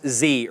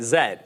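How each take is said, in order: First: The letter is said as zee. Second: The letter is said as zed.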